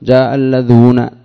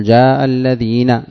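First: اللذون, long oo sound in place of ee; Alladhuna with waw. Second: Slow الذين, drawn-out ee sound; Alladhina with ya. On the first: Teacher shows the other dialect's form, اللذون with long oo. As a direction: say اللذون with a long oo before the final na. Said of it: "ولا تقول". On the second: Teacher models correct usage for students, الذين with long ee. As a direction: say الذين with a long ee before the final na. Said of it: "يعني تقول". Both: Shown as a demonstration.

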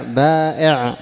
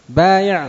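First: بائع with long aa, then glottal stop; hamza replacing ya. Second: بايع higher, with a y glide; original ya form. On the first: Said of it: "الهمزة بدل". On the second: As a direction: say بايع with ya, no hamza. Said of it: "الياء". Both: Shown as a demonstration.

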